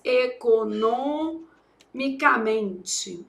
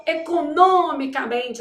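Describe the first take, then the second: First: "economicamente" bem devagar, sílaba por sílaba, com pausa depois de NO; derivada ditada. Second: "economicamente" com força no NO, dito de uma vez; pré-tônica forte. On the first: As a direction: dite "economicamente" em pedaços, alongando as sílabas. Dita a derivada enquanto escreve. ("economicamente" separado em sílabas, como quem escreve) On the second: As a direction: acentue NÔ em "economicamente", guardando a pronúncia de econômico. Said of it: "a gente fala essa forte". ("economicamente" corrido, com NÔ bem marcado) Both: Shown as a demonstration.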